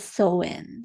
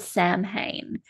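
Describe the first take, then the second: First: It is said like 'sow-in', with no 'm' sound. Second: It is said as spelled, like 'sam-hain'. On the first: The speaker calls it right. "we actually pronounce it with um, its Celtic roots" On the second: The speaker calls it wrong. "it looks like it's called Samhain"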